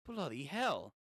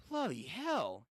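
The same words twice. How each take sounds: First: "Bloody hell" in a light mock British accent. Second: Said in the usual way. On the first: Shown as a demonstration. Reader switching to British for a manga line, mock British accent. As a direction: say "Bloody hell" like a Brit, half-joking. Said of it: "British for a second". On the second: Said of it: "Just turn British".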